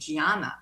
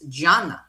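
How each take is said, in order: First: The name has an American pronunciation. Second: The name has an Italian pronunciation. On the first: The speaker calls it wrong. "here in America we say Gianna" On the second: The speaker calls it right. "Italian pronunciation is Gianna"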